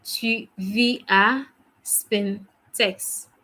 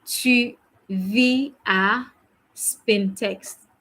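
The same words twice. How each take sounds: First: Tu vis à Spintex, word by word, very slowly; very slow repeat. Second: Tu vis à, drawn out very slowly; very slow model. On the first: Teacher repeating the sentence for students, very slowly. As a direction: lay out every syllable. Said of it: "Ça va?". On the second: Teacher modelling the answer for students, very slowly. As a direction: stretch each word for the learners. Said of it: "You say". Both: Shown as a demonstration.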